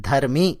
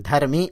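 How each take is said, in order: Both takes have the same delivery.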